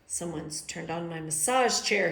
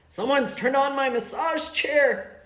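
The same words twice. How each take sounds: First: It is said quietly. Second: It is said loudly.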